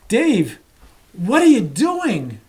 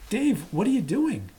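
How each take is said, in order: First: It is asked in a clearly incredulous tone. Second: It is asked in a plain, neutral tone.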